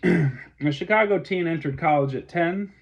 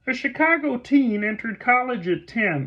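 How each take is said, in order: First: It is read in a natural speaking voice. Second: It is read in a put-on character voice.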